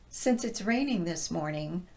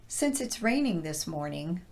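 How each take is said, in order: Both takes have the same delivery.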